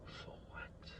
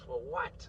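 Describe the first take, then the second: First: "For what?" whispered, softer and unvoiced; bitter whisper. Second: Said in the usual way. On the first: Real, not acted. Asking his viewers again, bitter whispered "For what?". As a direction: breathe "For what?" to yourself. Repeats question, second time whispered.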